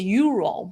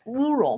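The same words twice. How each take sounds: First: The name is pronounced the English way. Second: The name is pronounced the Russian way. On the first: "in English you say Ural" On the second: "but in Russian it's Ural"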